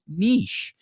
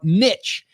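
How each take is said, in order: First: The word is said with a softer sound. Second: The word is said with a harder sound. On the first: "Sounds a little softer" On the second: "that's how I'm pronouncing it"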